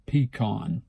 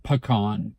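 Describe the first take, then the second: First: Pecan as PEE-kahn; own pronunciation. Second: Pecan as puh-KAHN; rejected pronunciation. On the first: Speaker correcting to their own way, pecan as PEE-kahn. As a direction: say pecan with a clear "pee" first. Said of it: "I say pecan". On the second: Speaker contrasting the wrong one, pecan as puh-KAHN. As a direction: say pecan with a short weak "puh" before "KAHN". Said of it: "Not pecan". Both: Shown as a demonstration.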